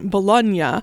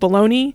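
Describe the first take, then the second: First: It is pronounced the Italian way. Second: It is pronounced the American way.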